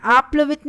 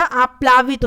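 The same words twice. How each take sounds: First: आप्लवित with short pla; short vowel after pl in आप्लवित; wrong form. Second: आप्लावित with long plaa; correct form. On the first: Teacher showing the missing vowel, आप्लवित as aapla-vit. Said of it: "आप्लवित नहीं होता". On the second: Teacher restoring the vowel, आप्लावित as aaplaa-vit. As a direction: open the middle of आप्लावित to aa. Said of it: "आप्लावित होता है". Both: Shown as a demonstration.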